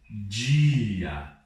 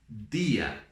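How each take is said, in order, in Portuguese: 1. O d é pronunciado do jeito brasileiro. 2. O d é pronunciado do jeito espanhol. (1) "eu não falo dia" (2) "eu falo dia"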